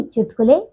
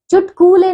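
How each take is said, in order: First: चुटकुले with a short "ku"; correct pronunciation. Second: चुटकुले with a long, high "koo"; mispronunciation. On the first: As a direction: keep the middle of चुटकुले short. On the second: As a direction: stretch the middle of चुटकुले. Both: Shown as a demonstration. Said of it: "चुटकुले नहीं".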